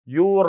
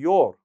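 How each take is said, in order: First: The vowel does not sound like 'door'. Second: The vowel sounds like the one in 'door'. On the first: The speaker calls it wrong. "your غلط يا إخوان" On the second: The speaker calls it right. "كيف مثلًا حرف العلة الموجود في كلمة door"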